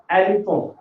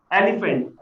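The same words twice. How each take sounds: First: French "elephant", final syllable a nasal vowel with no t; French pronunciation. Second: Said in the usual way. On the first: Shown as a demonstration. Teacher demonstrates the accented word, "elephant" said the French way. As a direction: end "elephant" on an open nasal sound, French style. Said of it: "when we put the accent". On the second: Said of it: "this is same as in English".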